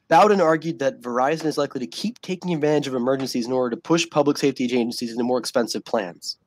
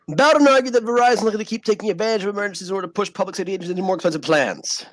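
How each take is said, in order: First: It is read at a slower pace. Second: It is read at a faster pace.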